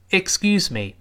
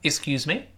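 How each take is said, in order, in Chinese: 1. 结尾音调下降。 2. 结尾音调上升。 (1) "刚才那个excuse me，我们当然读成降调" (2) "有的时候我们读成excuse me，这是声调"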